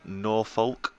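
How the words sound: It is said with an American pronunciation. This is how the name may be said in America. "if he is called Norfolk over there"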